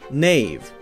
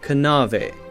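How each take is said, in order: First: The K at the start is silent. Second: The K at the start is sounded. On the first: This is how the word is said today. "we say just n" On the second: This is how the word was said in the past. "would have been pronounced something like canave"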